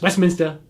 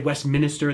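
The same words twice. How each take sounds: First: It is said in a Boston accent. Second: It is said without a Boston accent. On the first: The speaker calls it right. "with the Boston accent" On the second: The speaker calls it wrong. "That's not how you say it"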